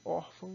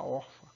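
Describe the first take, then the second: First: "órfã" stressed on ÓR with a nasal final ã; nasalized ending. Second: "órfã" with an oral final A, like "órfa"; without nasalization. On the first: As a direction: keep the last vowel of "órfã" nasal. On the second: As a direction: drop the nasal from the end of "órfã". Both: Shown as a demonstration. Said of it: "para não ficar órfã".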